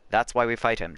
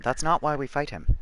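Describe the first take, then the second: First: Said in the usual way. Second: "not" lifted and leaned on hard; firm correction, weight on "not"; stress on NOT. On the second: Shown as a demonstration. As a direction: hit the word "not" to correct it.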